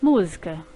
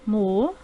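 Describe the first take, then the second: First: Said in the usual way. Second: Mu-zi-ca said in three separate beats; syllables split apart. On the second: Shown as a demonstration. Teacher dividing Mu-zi-ca into syllables for pupils. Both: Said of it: "Cada vez que eu emito um som".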